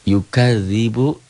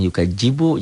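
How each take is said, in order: First: The middle consonant is a soft dh sound. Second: The middle consonant is a j sound. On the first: The speaker calls it right. "Ini zal gitu" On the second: The speaker calls it wrong.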